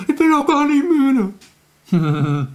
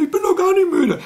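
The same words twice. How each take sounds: First: High, slow, whining protest; whiny child. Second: Very high whining puppet voice, "nicht" pushed hard; squeaky creature insisting she isn't tired; Elfriede's squeaky voice. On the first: Retold or imitated. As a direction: stretch it like a sleepy kid refusing bed. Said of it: "Dann sagt ihr doch immer". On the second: Acted. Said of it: "Das ist bei Elfriede genauso".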